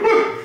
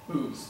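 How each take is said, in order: First: It is said loudly and slurred. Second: It is said quietly and clearly.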